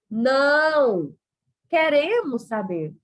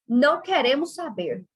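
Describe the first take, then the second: First: There is a pause right after não. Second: It runs on without a pause after não. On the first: Stop that, but keep telling us about it. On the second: We have no interest in the subject.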